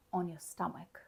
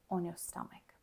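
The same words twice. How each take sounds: The two takes are said the same way.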